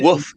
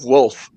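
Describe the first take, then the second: First: The word is said without an L sound. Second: The word is said with an L sound. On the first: The speaker calls it wrong. "People say woof instead of wolf" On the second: The speaker calls it right. "instead of wolf"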